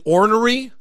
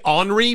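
First: The word is said in a careful, full way. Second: The word is said in a casual, reduced way. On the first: This is the proper way to say it. The speaker calls it right. "but it's actually ornery" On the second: This is how people commonly say it. The speaker calls it wrong. "people say ornery"

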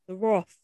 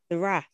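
First: The word rhymes with cloth. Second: The word rhymes with bath. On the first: The speaker calls it right. "It's actually Roth" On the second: The speaker calls it wrong. "They probably pronounced it wrong"

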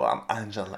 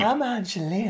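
First: The put-on voice is too deep. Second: The put-on voice is high-pitched and bubbly.

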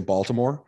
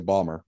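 First: The name is said with all three syllables. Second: The name is shortened to two syllables. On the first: This is how most other people say the name. "the rest of us humans in the United States usually say Baltimore" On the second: This is how locals say the name. "People from there say Balmer"

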